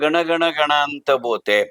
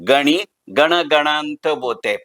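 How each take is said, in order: First: The first word has no extra final vowel. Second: The first word ends with an extra 'i' vowel. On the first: This is the form people commonly recite. "आपण सगळेजण सदैव म्हणतो ते मात्र असतं" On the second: This is the form the saint himself used. "या पुस्तकाचं शीर्षक आहे गणी गण गणांत बोते"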